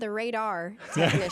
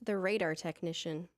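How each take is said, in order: First: The word sounds like 'ray-dar', with a clear ending. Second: The word sounds like 'raider', with a Southern drawl. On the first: The speaker calls it right. "There you go" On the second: The speaker calls it wrong. "You said Raider"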